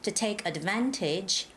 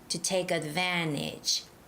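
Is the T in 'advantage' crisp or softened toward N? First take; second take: crisp; softened. First: The T in advantage is a crisp, hard T. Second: The T in advantage is softened toward N. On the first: "you can make the hard T sound... Can you hear that T sound?" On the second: "make that T a little bit smoother, more like an N sound"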